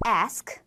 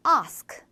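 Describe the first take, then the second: First: American short a in ask; 미국식 ask; American pronunciation. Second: British long a in ask; 영국식 ask; British pronunciation. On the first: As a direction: ask with a flat ae vowel, like esk. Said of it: "미국 영어에서는 ask". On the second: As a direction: ask with a broad ah vowel, like ahsk. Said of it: "영국 영어에서는 ask". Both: Shown as a demonstration.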